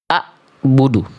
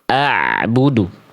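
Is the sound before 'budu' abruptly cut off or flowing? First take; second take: abrupt; flowing. First: The throat sound is cut off abruptly before budu. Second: The throat sound flows slightly before budu. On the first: The speaker calls it wrong. "Tapi seringkali kita justru baca seperti ini" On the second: The speaker calls it right. "Harusnya kita baca a budu"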